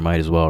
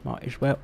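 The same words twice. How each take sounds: First: It is said in the speaker's normal accent. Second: It is said in a put-on British accent.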